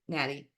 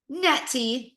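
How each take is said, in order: First: The name is said in an American accent. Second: The name is said without an American accent.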